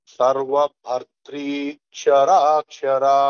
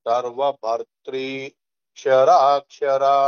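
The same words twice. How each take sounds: Both takes have the same delivery.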